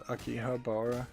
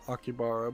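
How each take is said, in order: First: The middle 'ha' syllable is fully pronounced. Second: The middle 'ha' syllable is dropped. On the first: The speaker calls it right. "but actually it's" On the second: The speaker calls it wrong. "most people pronounce it"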